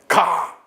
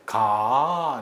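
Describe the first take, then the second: First: It is said as a command. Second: It is said as a gentle suggestion. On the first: It orders someone to go. "명령이죠" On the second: It asks or invites someone to go along. "부탁이나 권유를 하는 청유죠"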